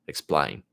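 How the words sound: The vowel is said in an Australian accent. "in this guy's Australian accent"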